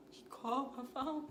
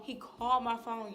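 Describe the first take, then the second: First: Said in the usual way. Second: Louder, hammering the news home; emphatic outburst. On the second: Shown as a demonstration. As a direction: shout it like disbelief.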